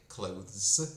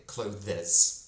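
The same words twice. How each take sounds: First: "clothes" in one syllable, th gliding into z; better CLOTHES. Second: "clothes" in two syllables, clo-thez; wrong CLOTHES. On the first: Teacher showing the better option, "clothes" in one syllable with th. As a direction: say "clothes" slowly as a single syllable. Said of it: "точно краще сказати". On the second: Teacher showing what not to say, "clothes" in two syllables. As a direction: add a false syllable to "clothes", DEZ ending. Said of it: "ніж сказати". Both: Shown as a demonstration.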